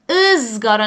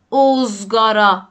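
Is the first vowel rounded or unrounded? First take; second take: unrounded; rounded. First: The first vowel is short and unrounded. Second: The first vowel is a rounded o sound. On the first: The speaker calls it right. "پس انگار یه سکون گذاشتم" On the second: The speaker calls it wrong. "نگفتم"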